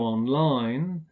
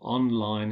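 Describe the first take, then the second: First: The stress is on the second syllable. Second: The stress is on the first syllable. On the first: It is used as an adverb. "as adverbs, we stress the final syllable" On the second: It is used as an adjective. "as adjectives, we stress the first syllable"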